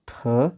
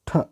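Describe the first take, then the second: First: It ends with a short 'a' vowel. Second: It ends on the bare consonant. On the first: "ಮೊದಲ ಅಕ್ಷರ ಉಚ್ಚಾರಣೆ ಮಾಡಬೇಕಾದ್ರೆ ಅದರಲ್ಲಿ ಅ ಬರುವ ಹಾಗೆ" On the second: "ಹಲಂತ್ ... ಕೊನೆಗೆ ಅ ಬರದ ಹಾಗೆ"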